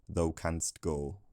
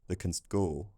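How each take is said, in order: First: The pronoun is said in its full strong form. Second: The pronoun is weakened to a short reduced vowel. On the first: "rather than" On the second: "perhaps Shakespeare's Londoners said"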